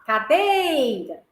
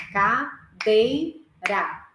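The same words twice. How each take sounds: First: "Cadeira" called out slowly, with a lengthened, stressed "dei"; calling the word. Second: Very slow, split into three parts: ca-dei-ra; syllable by syllable. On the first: Teacher to class, calling "Cadeira" with a long "dei". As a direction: call "Cadeira" out as if to someone, holding the middle syllable. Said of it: "Como se eu estivesse chamando a palavra". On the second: Teacher to class, splitting "Cadeira" into three slow syllables. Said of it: "eu vou falar em três partes". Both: Shown as a demonstration.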